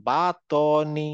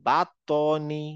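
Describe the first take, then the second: Both takes have the same delivery.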